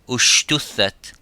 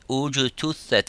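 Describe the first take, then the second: First: The consonant after the first vowel is sh. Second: The consonant after the first vowel is j. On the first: The speaker calls it wrong. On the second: The speaker calls it right.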